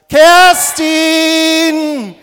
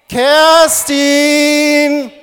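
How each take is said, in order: First: The name is called more loudly. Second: The name is called at normal loudness.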